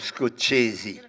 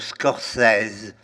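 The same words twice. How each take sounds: First: The name is said with an American pronunciation. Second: The name is said with a French pronunciation. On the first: "alors qu'ici, tout le monde parle de Scorsese" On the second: "En France, par exemple, on parle de Scorsese"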